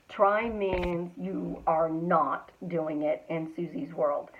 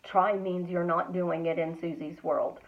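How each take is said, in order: First: Slow, deliberate "you are not", uncontracted; slowed-down restatement stressing "not"; emphatic repeat. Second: Said in the usual way. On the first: Real, not acted. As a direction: drive home "you are not" word by word. Repeats the point slowly for emphasis.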